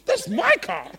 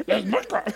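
First: Higher, louder mock whine on "my car"; possessive whine. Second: Same words, closer to own voice, light mock; lighter repeat. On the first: Churchgoer mocking a jealous believer, put-on whine. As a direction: stake your claim in a put-on voice. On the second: Preacher repeating the joke, lightly voiced. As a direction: toss the line off half-laughing. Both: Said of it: "Why do I sound like you".

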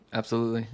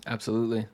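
The two takes are said the same way.

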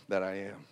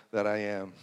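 No difference in how they are said.

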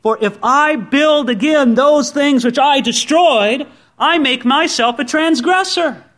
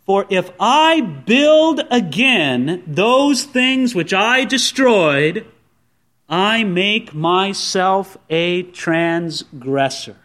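First: Verse read higher, rising on "those" before falling on "transgressor"; lifted, preaching reading of the verse; higher, stronger verse reading. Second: Very slow scripture read, leaning on each I; measured, deliberate verse reading; slow emphatic reading. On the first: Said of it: "Look at it in verse eighteen". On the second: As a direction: read it out slowly, stressing "I" in "if I build" and "I make myself". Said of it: "He says". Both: Shown as a demonstration.

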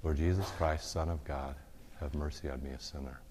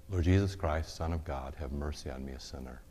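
First: Soft prayer fading to a hush; breath prayer murmured. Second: Rhythmic murmured prayer. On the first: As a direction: let each phrase ride a breath out. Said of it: "Or with every breath". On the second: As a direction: breathe the words like a heartbeat. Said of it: "say it with every beat of your heart". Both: Shown as a demonstration.

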